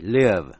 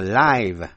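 First: The vowel is short, as in 'give'. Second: The vowel is long, as in 'five'. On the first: It is the verb meaning to be alive or reside. "động từ L-I-V-E, live, có nghĩa là sống" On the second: It is the adjective meaning living or happening now. "là tĩnh tự, có nghĩa là sống động"

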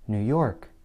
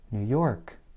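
First: The stress falls on the word York. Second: The stress falls on the word York.

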